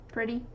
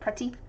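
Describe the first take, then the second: First: The middle consonant sounds like a soft d. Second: The middle consonant is a crisp t sound. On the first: "T's become D's" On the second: "instead of"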